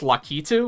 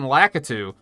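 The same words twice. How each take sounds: First: The name is said with Japanese-style vowels. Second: The name is said with English-style vowels. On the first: This is how the name is officially said. The speaker calls it right. "with the Japanese pronunciation" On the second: This is how the name was wrongly assumed to be said. The speaker calls it wrong. "I thought it was"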